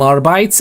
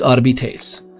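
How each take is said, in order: First: The word is pronounced the English way. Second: The word is pronounced the Latin way. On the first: The speaker calls it wrong. "people in English calling them Arbites, and I'm like, that's not for me" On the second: The speaker calls it right. "in Latin it would be Adeptus Arbites"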